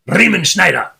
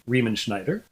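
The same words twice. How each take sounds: First: The name is said with a strong German accent. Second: The name is said with an English accent. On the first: "that's a nice German way of saying it" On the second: "It's not quite German"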